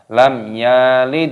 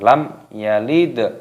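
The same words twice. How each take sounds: First: The vowel after y is lengthened. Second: The vowel after y is kept short. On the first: The speaker calls it wrong. "yaknya ini juga dipanjangkan bagi pemula" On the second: The speaker calls it right. "di sini pendek, maka ya jangan dipanjangkan"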